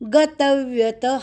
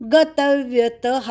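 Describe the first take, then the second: No difference in how they are said.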